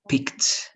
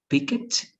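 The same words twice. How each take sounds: First: The ending is a plain t sound. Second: The ending is said as a separate syllable. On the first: The speaker calls it right. "it's going to be picked" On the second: The speaker calls it wrong. "instead of picked"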